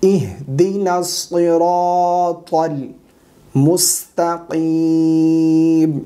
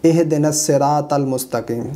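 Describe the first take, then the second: First: Slow chanted "इहदिनस सिरातल मुस्तकीम"; heavy s and t in "सिरातल"; correct recitation. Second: Quick spoken "इहदिनस सिरातल मुस्तकीम"; light s and t in "सिरातल", as "seratal"; unchanted Urdu-style "इहदिनस सिरातल मुस्तकीम"; common mistake. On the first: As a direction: hold the long vowels of "इहदिनस सिरातल मुस्तकीम". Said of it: "सही करके पढ़िएगा आप". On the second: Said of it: "गलत पढ़ते हैं इस तरह से". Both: Shown as a demonstration.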